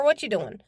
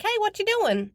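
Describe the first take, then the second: First: Said in the usual way. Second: Put-on high, playful toddler voice; imitating a small boy on a video call; little boy voice. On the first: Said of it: "I'm like". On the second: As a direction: chirp it like a tiny kid. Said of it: "and he's like".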